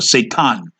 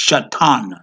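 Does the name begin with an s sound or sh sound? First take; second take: s; sh. First: The name begins with a plain s sound. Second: The name begins with an sh sound. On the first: The speaker calls it wrong. "we know now it's not Satan" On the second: The speaker calls it right. "It's Shaitan"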